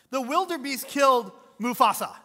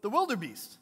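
First: Loud, high, stress on killed; emphatic answer. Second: Said in the usual way. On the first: Real, not acted. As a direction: declare it to the crowd.

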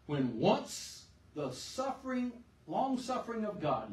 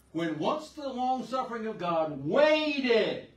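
First: Raised, slow reading of long-suffering; first reading of the verse. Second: Slow, loud reading that lands on waited; stress on waited. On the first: Preacher reading the verse to the church, slow and raised. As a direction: read it slowly, leaning on long-suffering. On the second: Preacher rereading the verse to the church, punching waited. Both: Shown as a demonstration. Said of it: "listen to this".

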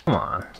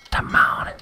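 First: Said in the usual way. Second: Breathy whispered plea; whispering. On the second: Real, not acted. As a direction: whisper it under your breath. Waiting for heals in game.

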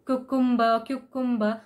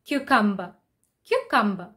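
First: Cucumber as koo-koom-ber; cucumber as written. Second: Cucumber, kyoo then a short u; cucumber as kyoo-kumber. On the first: Teacher showing the wrong cucumber. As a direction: say cucumber with oo sounds. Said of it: "not pronounce it exactly the way it is written". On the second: Teacher modelling cucumber. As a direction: say cucumber as kyoo-kum-ber. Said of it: "the actual pronunciation is". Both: Shown as a demonstration.

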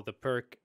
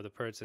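First: Pirc closed with a hard k; Pirc as "perk". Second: Pirc closed with a ts; Pirc as "perts". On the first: Host names the opening both ways, Pirc as "perk". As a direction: say Pirc to rhyme with "work". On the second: Host names the opening both ways, Pirc as "perts". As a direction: say Pirc like "perts", not "perk". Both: Shown as a demonstration. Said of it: "Whatever it is".

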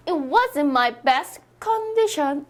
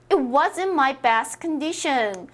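First: "condition" hit on CON, Korean-style; wrong stress on condition. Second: "condition" stressed on DI, weak first syllable; slow model sentence, con-DI-tion; correct stress on condition. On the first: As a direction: mistaken CON-di-shon in a slow English sentence. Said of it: "이거 아니죠". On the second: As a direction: lean on the middle syllable of "condition". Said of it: "애매한 영어 강세 정해드립니다". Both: Shown as a demonstration.

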